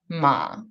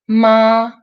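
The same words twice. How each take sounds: First: The pitch dips low. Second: The pitch stays high and level. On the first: It means horse. "When it's third tone, it's horse" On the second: It means mother. "When it's first tone, it's mother"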